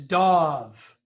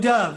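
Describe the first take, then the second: First: The vowel is an 'aw' sound. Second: The vowel is an 'uh' sound. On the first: The speaker calls it right. "pronounce it D A W V" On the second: The speaker calls it wrong. "no wings, so no E"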